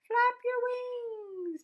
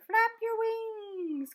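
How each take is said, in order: First: Loud urgent call. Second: Drawn-out, slow call of flap your wings. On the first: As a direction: Flap your wings shouted higher and louder, a pause before wings. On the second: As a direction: stretch each word of Flap your wings out slowly. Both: A narrator's reading. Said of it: "called the bird".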